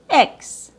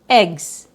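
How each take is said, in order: First: It is a short i vowel plus 'ks'. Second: It is a short i vowel plus 'gz'. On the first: "with a short I sound plus K S" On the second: "a short I sound plus G plus Z"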